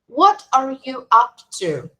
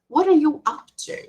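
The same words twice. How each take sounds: First: The phrase is said slowly and carefully. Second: The phrase is said at normal conversational speed.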